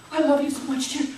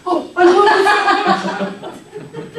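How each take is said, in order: First: Said in the usual way. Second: Slow, drawn-out, loud and laughing, squeezing a big hug; hammed-up gushing laugh. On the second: Shown as a demonstration. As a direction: gush it out slowly through laughter, hugely overdone. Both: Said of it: "That's quite a hug".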